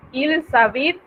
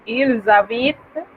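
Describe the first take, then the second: First: "ils habitent" linked with a hissing S; liaison sounded as S. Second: "Ils habitent" slowly, linked with a buzzing Z; liaison with Z. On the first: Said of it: "en realidad ese sonido debería". ("ils habitent" con la liaison pronunciada como S) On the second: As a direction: link "Ils habitent" with a voiced Z before the vowel. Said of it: "debería ser una Z". ("Ils habitent" despacio, con liaison en Z sonora) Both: Shown as a demonstration.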